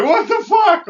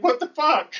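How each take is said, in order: First: High, loud incredulous shout; outraged disbelief. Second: High, incredulous what the fuck; high incredulous yelp; mock disbelief. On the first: Retold or imitated. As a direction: shriek it in outrage. Retold outrage at being robbed. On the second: Retold disbelief at extra cigars.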